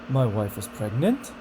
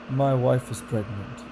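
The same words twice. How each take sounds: First: It sounds unsure, with the pitch going up. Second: It sounds bored, with the pitch going down.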